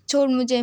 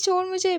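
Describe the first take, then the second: First: Louder, pushing protest; mock loud protest. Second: "छोड़ मुझे" in a higher, squeaky whine; mock high-pitched "छोड़ मुझे"; whiny pleading. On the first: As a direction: demand to be put down. Lifted up, demands to be released. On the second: Begging to be put down.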